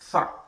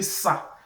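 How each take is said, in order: First: It starts with a th sound, tongue out. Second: It starts with a hissing s sound. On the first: The speaker calls it right. "So it has to be tha" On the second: The speaker calls it wrong. "if you say sa, you are pronouncing something else"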